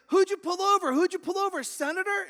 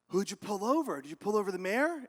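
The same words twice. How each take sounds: First: Very high, loud mock hysteria; frantic dispatcher. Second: Lightly acted eager questioning; mildly curious dispatcher. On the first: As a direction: shout questions in a hammed-up squeal. Dispatcher more frantic each round. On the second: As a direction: ask with a touch of urgency. Dispatcher questioning cop, first round.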